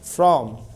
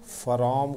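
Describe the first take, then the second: First: The f and r are joined with no vowel. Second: A vowel is inserted between the f and r. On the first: The speaker calls it right. "ये फ्र शुरू में रहता है" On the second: The speaker calls it wrong. "फरॉम कहा, तो ये दोनों गलत है"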